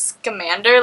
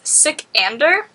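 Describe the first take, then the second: First: The name begins with the sound 'scam'. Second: The name begins with the sound 'sick'. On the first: The speaker calls it wrong. "I literally was pronounced as Scamander, like Newt Scamander" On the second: The speaker calls it right. "But I think it's Sikander, or something closer to that"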